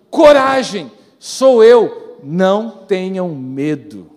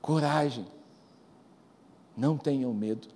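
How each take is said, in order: First: Loud, ringing declaration of courage; bold proclamation. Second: Much softer, lower, gentle; hushed reassurance. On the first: Preacher proclaims Jesus's words to the church, loud and bold. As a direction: call it out boldly to the crowd. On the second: Preacher softly reassures the frightened listener, hushed and tender. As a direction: breathe it softly like a comfort. Soft repeat after loud. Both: Acted.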